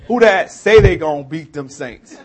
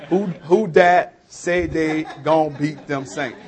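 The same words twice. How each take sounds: First: Loud, raised New Orleans fan chant; New Orleans accent. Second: Slow, drawn-out New Orleans dialect; New Orleans accent. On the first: Local showing outsiders what we say, in a loud New Orleans accent. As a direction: belt it out in New Orleans dialect. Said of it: "But what we say is". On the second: Local repeating the phrase for baffled listeners, slow New Orleans accent. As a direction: spell it out slowly in New Orleans talk. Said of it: "to me, that makes perfect sense". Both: Shown as a demonstration.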